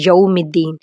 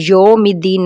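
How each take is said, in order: First: یوم with a clear yau diphthong; correct yaum. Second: یوم said plain yom; wrong yom. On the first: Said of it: "یو کر کے پڑھیں گے". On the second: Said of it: "یوم الدین نہیں پڑھیں گے". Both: Shown as a demonstration.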